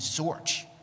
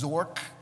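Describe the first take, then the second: First: The name ends with a 'ch' sound. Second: The name ends with a 'k' sound. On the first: The speaker calls it right. "remember what the pronunciation of her name was Zorch" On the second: The speaker calls it wrong. "because I didn't know any better"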